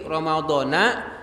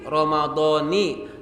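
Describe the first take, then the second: First: The word ends with an 'a' vowel. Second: The word ends with an 'i' vowel. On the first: "Versi yang kedua" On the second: "Itu versi pertama, Ramadoni"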